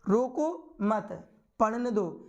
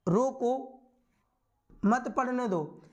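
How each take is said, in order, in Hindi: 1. विराम ठीक मत के बाद आता है। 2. विराम ठीक रोको के बाद आता है। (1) "चौथे वाले में देखो रोको मत" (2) "रोको फिर अल्पविराम, थोड़े समय के लिए रुके"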